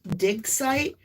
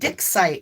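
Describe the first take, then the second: First: The first word ends with a clear g sound. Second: The first word ends with a k sound. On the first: The speaker calls it right. "I kept trying to say dig site" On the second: The speaker calls it wrong. "it was coming out differently. It was coming out dick site"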